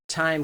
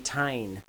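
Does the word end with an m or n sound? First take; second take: m; n. First: The word ends with an m sound. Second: The word ends with an n sound. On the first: "We're expecting M" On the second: "We got N"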